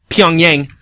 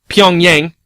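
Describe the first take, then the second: Both takes have the same delivery.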